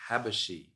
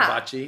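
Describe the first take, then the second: First: The last syllable starts with an 'sh' sound. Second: The last syllable starts with a 'ch' sound. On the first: This is the original family pronunciation. "it was originally pronounced" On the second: It sounds like a Japanese word. "it sounds super Japanese"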